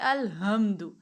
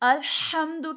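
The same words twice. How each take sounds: First: The h is a plain, light sound. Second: The h is a breathy, throaty sound. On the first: The speaker calls it wrong. "गलत हो गया, माना बदल गया" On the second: The speaker calls it right. "सांस की आवाज वाला"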